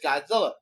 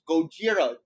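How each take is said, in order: First: It is said the English way, Godzilla. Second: It is said the Japanese way, Gojira. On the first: This is the name used by Americans. "for all of us Americans is Godzilla" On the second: This is the name used in Japan. "for Japan it is Gojira"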